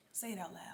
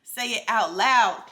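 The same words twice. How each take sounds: First: Softer dare. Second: Louder, slower "Say it out loud", falling hard on "loud"; firm command. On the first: Daring listeners to voice fears, softer. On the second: Urging listeners to voice fears, louder and firm. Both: Shown as a demonstration. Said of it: "I dare you to".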